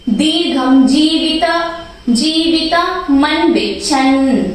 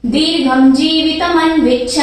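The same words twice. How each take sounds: First: Slow, with a pause after जीवित before मन; slow chant pausing after जीवित. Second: Chanted, दीर्घम जीवित मन विच्छन flowing, मन stressed; chanted, run the line smoothly, weight on मन; full chanted line; chanted in metre. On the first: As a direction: break after जीवित, then मन विच्छन. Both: Shown as a demonstration. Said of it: "त पे मैंने pause दिया बोलते time".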